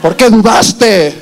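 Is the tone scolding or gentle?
scolding. It is said in a scolding tone.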